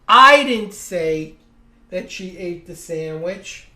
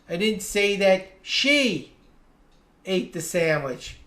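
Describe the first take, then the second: First: The stress falls on the word "I". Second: The stress falls on the word "she". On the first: Someone else said it. "Someone said it, but it wasn't me" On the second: Someone else ate the sandwich. "I said someone ate the sandwich, but it wasn't her"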